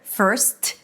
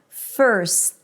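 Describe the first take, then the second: First: The final T is popped with an audible release. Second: The S is held, then stopped without releasing T. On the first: The speaker calls it wrong. "I don't need to pop the T to let the world know that there is a T there. First, no" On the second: The speaker calls it right. "I just held the S"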